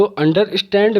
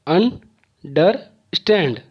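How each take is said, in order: First: Said in the usual way. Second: "understand" very slowly, अन, डर, stand; three separated beats on "understand"; syllable by syllable. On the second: Shown as a demonstration. ("Understand" को तीन टुकड़ों में धीरे-धीरे) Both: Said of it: "तीन बार आया है".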